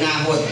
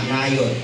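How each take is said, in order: First: The middle consonant is an H sound. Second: The middle consonant is a Y sound. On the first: This is the local reading of the name. "O Nahot tayo sa Tagalog tayo ha" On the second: This is the original-language reading of the name. "ang pronunciation po niyan talaga is Nayot. Yung J ay nagiging Y sa Hebrew"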